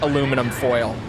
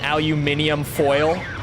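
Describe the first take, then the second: First: The metal word is said as aluminum. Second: The metal word is said as aluminium. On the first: The speaker calls it right. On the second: The speaker calls it wrong.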